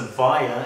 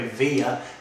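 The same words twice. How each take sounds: First: It is said with an Australian pronunciation. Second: It is said with an American pronunciation.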